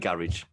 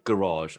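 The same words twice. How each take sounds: First: The word is said in a plain accent. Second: The word is said in a posh accent. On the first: The speaker says it this way. "neither Catherine or I say it like that" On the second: Someone else says it this way. "She'll pronounce her R's as in A R in a word very poshly"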